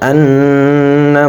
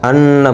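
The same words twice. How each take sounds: First: The double n is held with nasal hum. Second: The double n is short without nasal hold. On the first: The speaker calls it right. "এখানে গুণ্য হবে" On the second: The speaker calls it wrong. "আমরা অনেকেই গুণ্য করি না, আন্না বলি"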